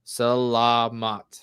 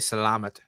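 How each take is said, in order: First: The syllables are said clearly separated. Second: The syllables are run together smoothly. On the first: The speaker calls it right. "the words is like segregated in like two or three syllables" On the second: The speaker calls it wrong. "I was saying it wrong ... like salad"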